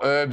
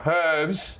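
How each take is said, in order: First: The word starts without any H sound. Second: The word starts with a clear H sound.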